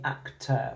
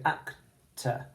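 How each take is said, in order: First: Actor with a full er at the end; actor, final syllable said as spelled, er. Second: Actor with a weak uh at the end; schwa ending. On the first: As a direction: say actor sounding the er ending. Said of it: "but we don't say actor". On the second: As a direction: end actor on a short relaxed uh. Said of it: "we say actor". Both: Shown as a demonstration.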